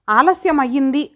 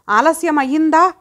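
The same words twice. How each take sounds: First: Smiling lightly. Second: Higher, sharp mocking echo through clenched teeth; angry through gritted teeth. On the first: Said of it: "ఆ నవ్వు నవ్వుతూ". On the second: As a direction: throw her word back in rage. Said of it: "పళ్ళు బిగించి". (పళ్ళు బిగించి కోపంగా) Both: A narrator's reading.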